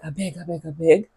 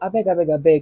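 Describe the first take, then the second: First: It is said in a begging, pleading tone. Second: It is said in an exasperated, fed-up tone. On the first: The speaker is begging for something. "whether you are pleading like" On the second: The speaker wants the other person to stop talking. "like please, please, please, don't tell me anymore"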